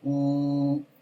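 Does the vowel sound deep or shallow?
shallow. The vowel sounds shallow, without a lowered throat. The speaker calls it wrong. "si no bajo"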